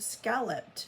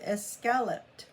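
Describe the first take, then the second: First: The word begins directly with the s sound. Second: The word begins with an extra vowel sound. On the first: This is the familiar modern form. "scalloped without that E at the beginning" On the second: This is an old spelling of the term. "it looks like it would be escalloped"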